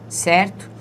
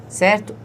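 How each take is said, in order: The two takes are said the same way.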